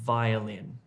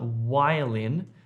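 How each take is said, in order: First: The first sound uses top teeth on lower lip. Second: The first sound is made with both lips. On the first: The speaker calls it right. "your top teeth on your bottom lip here" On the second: The speaker calls it wrong. "It's not a lip sound"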